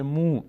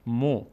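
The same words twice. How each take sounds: First: مو as a long mū, vowel stretched; strengthened damma. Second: مو as a brief mo, vowel not stretched; short damma. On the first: Teacher showing damma followed by vav, lengthened vowel. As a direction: hold مو on a long u. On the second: Teacher showing ordinary damma, short vowel. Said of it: "ضمه صدای او داره". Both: Shown as a demonstration.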